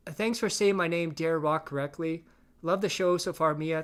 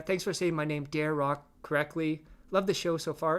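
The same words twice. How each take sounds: First: Lightly hammed-up chat reading; mock troll read. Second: Said in the usual way. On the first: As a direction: sell the troll's fake sincerity. Reading troll chat, first take.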